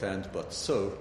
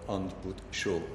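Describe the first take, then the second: First: It is said with native English pronunciation. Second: It is said with a Hungarian-style pronunciation. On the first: This is how the words are normally said. "I pronounce it not and, but, so" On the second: This is how the speaker first learned to say them. "but and, but, so"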